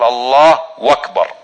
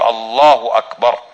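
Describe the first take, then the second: First: A 'w' sound is added between the two words. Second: The two words join with no added 'w' sound. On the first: The speaker calls it wrong. "يضع حرف الواو بين الله وبين أكبر" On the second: The speaker calls it right. "فتقول الله أكبر"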